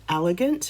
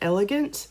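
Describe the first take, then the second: First: The first vowel sounds more like 'a'. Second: The first vowel sounds like a plain 'e'.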